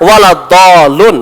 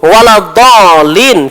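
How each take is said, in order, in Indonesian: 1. Kata itu berakhir dengan bunyi -un. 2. Kata itu berakhir dengan bunyi -in.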